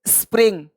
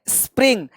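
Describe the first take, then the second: The two takes are said the same way.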